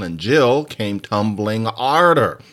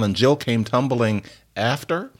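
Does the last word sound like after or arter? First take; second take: arter; after. First: The last word is said dialectally as arter. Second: The last word is said as standard after.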